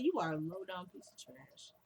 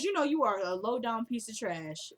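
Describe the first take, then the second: First: Much softer, cool and composed; classy put-down. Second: Said in the usual way. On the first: Retold or imitated. Veronica insulting Jennifer, soft and classy. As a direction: deliver the insult softly, with poise. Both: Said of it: "she said it so classy".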